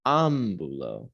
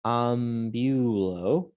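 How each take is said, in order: First: Slow AM-bu-lo; stress on first syllable. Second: Drawn-out am-BYU-lo, stress on the middle of ambulo; slowly misplace the stress in ambulo onto "byu"; wrong stress in ambulo. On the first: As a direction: hit the opening A of Ambulo, let the rest fall. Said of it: "where to put the emphasis". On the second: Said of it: "Notice it's not". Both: Shown as a demonstration.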